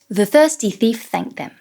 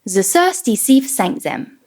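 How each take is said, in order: First: The th sounds are full, true th sounds. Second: The th sounds are replaced by s and z. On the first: The speaker calls it right. "the correct technique with my tongue below and in front of my teeth" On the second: The speaker calls it wrong. "Let's start with the S and Z"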